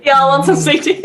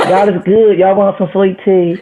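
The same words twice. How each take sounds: First: Put-on light try at a Southern accent; mild mock Southern accent. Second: High, slow Southern drawl, hammed up; mock Southern accent, pitched up. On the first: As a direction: echo the Southern host in a Southern accent. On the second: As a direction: play a sweet-tea Southern host in a Southern accent. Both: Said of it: "In a Southern accent?".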